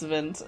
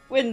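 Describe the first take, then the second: First: It is said with a German pronunciation. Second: It is said with an English pronunciation.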